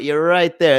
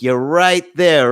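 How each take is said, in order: First: Said in the usual way. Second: Slow peak. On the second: Shown as a demonstration. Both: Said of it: "and then it goes like this".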